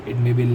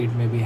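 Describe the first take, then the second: No difference in how they are said.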